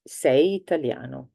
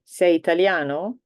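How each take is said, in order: First: "Sei italiano?" said level, falling at the end like a statement; teacher demonstrating an Italian statement; flat statement. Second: "Sei italiano?" with the pitch rising up on "italiano"; teacher demonstrating an Italian question. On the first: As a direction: state it, no lift. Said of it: "if it's just the affirmative". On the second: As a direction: ask it, voice lifting at the end. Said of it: "If you're asking a question". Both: Shown as a demonstration.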